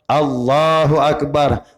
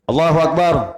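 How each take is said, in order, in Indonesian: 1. Vokal pada Allah dipanjangkan sedikit. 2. Setiap vokal dalam frasa itu dibaca pendek. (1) "Ada panjang sedikit Allahnya tu" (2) "Sama tu pendek semua"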